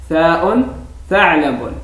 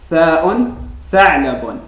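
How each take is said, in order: Both takes have the same delivery.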